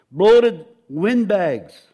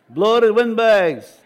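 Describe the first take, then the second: First: Slow, heavy stress on bloated; emphatic reading. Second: "Bloated windbags" slow and louder, punched; emphatic repeat. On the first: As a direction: drag out "bloated windbags" slowly and loud. Preacher reading vice list emphatically. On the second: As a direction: hammer "Bloated windbags" home slowly. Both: Acted.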